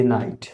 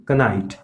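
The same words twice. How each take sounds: First: नाइट starting directly on n; correct silent K. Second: कनाइट with k and short vowel before n; wrong sounded K. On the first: Teacher reads out knight correctly, k silent. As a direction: say नाइट with no k sound. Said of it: "correct pronunciation इसका". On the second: Teacher lists wrong readings, knight with k sounded. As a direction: add a k syllable opening कनाइट. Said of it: "ये wrong है". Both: Shown as a demonstration.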